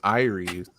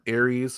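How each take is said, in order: First: It sounds like the ordinary name Iris. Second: It sounds like the war god's name Ares. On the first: "the way we pronounce it" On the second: "like the God of War"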